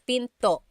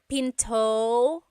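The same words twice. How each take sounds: First: The final vowel ends abruptly in a glottal stop. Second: The final vowel fades out with no glottal stop. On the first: The speaker calls it right. "Stop it at the end" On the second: The speaker calls it wrong. "It's not"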